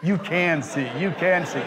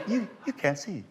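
First: Mock self-correction, firmer and a little higher; arguing with herself. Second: High, soft mock doubt; arguing with herself. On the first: Actress watching card tricks, insistently arguing with herself. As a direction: imitate reversing your own verdict, insistently. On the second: Actress watching the show, softly arguing with herself. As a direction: imitate puzzled talking to oneself, softly. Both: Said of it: "she's sitting there arguing with herself".

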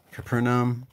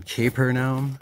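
First: "Capernaum" with a reduced first syllable, like "kuh"; short first vowel in Capernaum. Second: "Capernaum" with first syllable like "cape"; long A in Capernaum. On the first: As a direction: say "Capernaum" starting with a quick, unstressed "kuh". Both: Shown as a demonstration. Tries two pronunciations of name.

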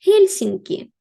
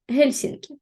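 First: "Гельсінкі" called out higher and louder with a falling close; teacher presenting "Гельсінкі" with a strong fall; emphatic headword. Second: Said in the usual way. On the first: Shown as a demonstration. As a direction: announce "Гельсінкі" boldly, pitch up, ending down.

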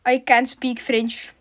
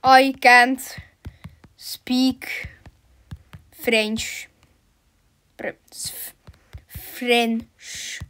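First: "I can't speak French" slowly in one run; slow, connected. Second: "I can't... speak... French" with long pauses between words; halting word by word. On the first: Player telling French players, "I can't speak French" slow but connected. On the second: Player telling French players off, "I can't speak French" word by word. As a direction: stretch "French" and break after each word. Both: Real, not acted.

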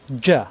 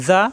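First: জা with a firm j stop; hard jim. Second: জা with a soft, lisped z; tongue tip lightly at the teeth for জা; soft zal. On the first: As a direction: press mid-tongue to palate for a strong "ja". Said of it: "শক্ত". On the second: Teacher setting soft against hard, soft zal. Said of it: "নরম করে". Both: Shown as a demonstration.

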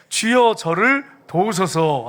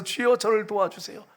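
First: Loud, very slow, measured verse reading; stately, drawn-out recitation; scripture reading aloud. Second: Understated imitation of a humble plea; pleading woman. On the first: Real, not acted. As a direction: read it out deliberately for the congregation to join. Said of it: "같이 읽겠습니다". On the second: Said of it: "절을 하면서 그냥 납작 엎드렸어요".

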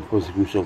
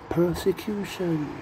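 First: Said in the usual way. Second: "persecution" high and slow; drawn-out word. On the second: Shown as a demonstration. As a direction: stretch "persecution" syllable by syllable, pitched up. Draws out word for wordplay.

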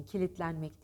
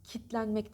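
First: Kilitlenmek with every syllable; full ki-lit-len-mek in kilitlenmek; correct pronunciation. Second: Kitlenmek with a syllable swallowed; wrong pronunciation. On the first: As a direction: model kilitlenmek with "li" sounded. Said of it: "kilitlenmek deyin". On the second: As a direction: show the clipped-syllable "kit-lenmek". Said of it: "Kitlenmek demeyin". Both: Shown as a demonstration.

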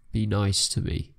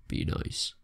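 First: Said in the usual way. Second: Soft unvoiced whisper of "Be nice"; whispered plea. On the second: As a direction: breathe "Be nice" like a secret plea. Pleading with game merchant.

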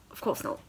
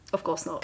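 First: Whisper. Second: Said in the usual way. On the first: Real, not acted. Sarcastic aside, unvoiced.

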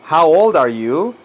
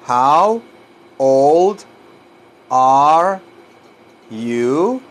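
First: Said in the usual way. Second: Put-on HOW, OLD, ARE, YOU each drawn out alone; word by word. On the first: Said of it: "Así se pregunta la edad". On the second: Shown as a demonstration. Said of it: "un poquito difícil de pronunciar".

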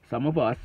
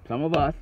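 The two takes are said the same way.

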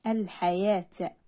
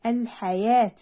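First: "الحياة" slower and lower, long aa; long vowel demo. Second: "الحياة" with a firm long aa after the y; long vowel demo. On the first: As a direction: draw out the yaa in "الحياة" at a low pitch. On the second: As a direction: lengthen the yaa in "الحياة". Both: Shown as a demonstration. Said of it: "مد بالألف".

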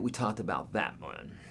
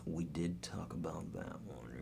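First: Said in the usual way. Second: A soft whispered aside, stress on did; teasing whisper. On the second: Acted. Teacher whispering to chat that he already answered. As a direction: whisper it like a private joke to the viewers.

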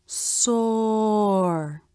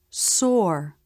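First: "soar" stretched very long, vowel rounded into the R; drawn-out SOAR. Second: Said in the usual way. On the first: Shown as a demonstration. Teacher showing ah followed by R in another word, "soar" drawn out slowly. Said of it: "When the ah vowel is followed by the R consonant". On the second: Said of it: "Let's look at another word".

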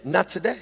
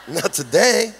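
First: Soft, understated inner refusal; quiet little voice within. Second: Amused repeat of an inner refusal. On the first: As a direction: say it softly, like a private thought. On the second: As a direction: repeat it with a laugh, fuller voice. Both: Acted. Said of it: "something within me that said".

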